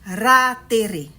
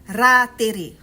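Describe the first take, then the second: Both takes have the same delivery.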